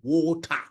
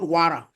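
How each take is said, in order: First: The word is said in a West African accent. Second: The word is said in an American accent. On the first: "to me, it is water" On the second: "it is not water"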